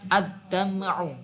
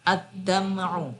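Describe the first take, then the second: Both takes have the same delivery.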